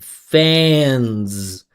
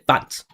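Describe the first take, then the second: First: The voicing continues through with full vowel resonance. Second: The voicing cuts off with little vowel resonance. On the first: The speaker calls it right. "I'm saying fans" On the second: The speaker calls it wrong. "Most of you will say fans, ... No vibration, no vowel"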